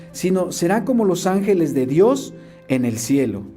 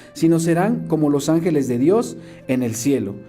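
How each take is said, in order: No difference in how they are said.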